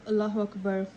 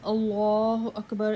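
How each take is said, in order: First: The first vowel of Allah is kept short. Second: The first vowel of Allah is drawn out long. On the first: The speaker calls it right. "instead of" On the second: The speaker calls it wrong. "To pull the alif of Allah by saying"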